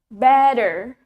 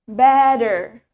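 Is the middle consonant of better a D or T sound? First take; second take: D; D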